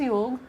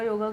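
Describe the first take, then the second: First: The word ends on its final consonant. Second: The word ends with an added final vowel. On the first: This is the original native form. The speaker calls it right. "अब it is योग। और वही बोलना चाहिए" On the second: This is how outsiders changed the word. The speaker calls it wrong. "उन्होंने योग को योगा योगा योगा योगा करना शुरू कर दिया"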